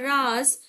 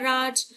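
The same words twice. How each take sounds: First: The word ends in a z sound. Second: The word ends in a j sound. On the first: It means a secret. "तो राज हो गया गुप्त रहस्य" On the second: It means a king's rule. "तो राजा का राज करना"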